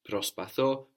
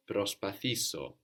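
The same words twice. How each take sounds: First: Προσπαθώ said pros-pa-THO, rising, stress on THO; teacher contrasts Προσπαθώ with its closed form; model Greek word. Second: Προσπαθήσω said pros-pa-THI-so, stress on THI; teacher shows the inserted syllable in προσπαθήσω; model Greek word. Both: Shown as a demonstration. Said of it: "We insert is".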